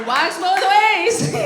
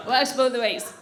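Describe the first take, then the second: First: Slow, loud, drawn-out call; loud, slow proclamation; loud punchline. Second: Low-pitched repeat of a punchline; low, understated tag line; low aside. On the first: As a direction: shout it out over the laughter, stretching each word. Punchline called out over laughter. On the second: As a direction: drop the pitch and state it matter-of-factly. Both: Real, not acted.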